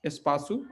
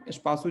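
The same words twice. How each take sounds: First: एस्पासु said as es-pa-su, rising; Portuguese word demo. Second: Said in the usual way. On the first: Shown as a demonstration. Teacher modelling espaço for students, clearly. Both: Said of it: "एस्पासु जो है कि space के लिए है".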